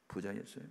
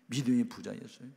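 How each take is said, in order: First: Said in the usual way. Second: 믿음의 pushed louder with a rising end; stress on 믿음의. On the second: Shown as a demonstration. Pastor correcting himself to the congregation, stressing 믿음의. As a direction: lean on 믿음의 to make the point.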